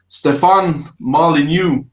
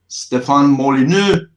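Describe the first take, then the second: First: The name is said in an American English accent. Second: The name is said in a French Canadian accent. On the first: "if I pronounce it in American English" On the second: "if I pronounce it in French Canadian"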